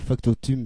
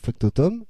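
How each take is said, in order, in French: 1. La dernière syllabe se termine par une voyelle nasale. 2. La dernière syllabe se termine par 'om', comme dans homme. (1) "j'ai pas dit factotum" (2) "se prononce homme"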